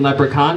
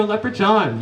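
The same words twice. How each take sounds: First: Said in the usual way. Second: Leprechaun said as "Lepre-John"; corrected pronunciation. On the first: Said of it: "I say, "You mean". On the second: Retold or imitated. Parents correcting the teacher, Leprechaun pronounced "Lepre-John". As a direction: stress the odd "john" ending of Leprechaun. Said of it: "They say, "No".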